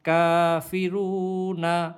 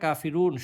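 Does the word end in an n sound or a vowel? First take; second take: vowel; n sound. First: The word ends with a vowel after n. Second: The word ends on the n sound. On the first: "নুন জবর না" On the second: "থামলে আমরা কাফিরুন শুধু নুন হরফটা উচ্চারণ করব"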